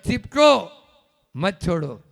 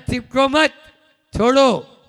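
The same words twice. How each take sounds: First: The pause comes after Chipko. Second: The pause comes after मत.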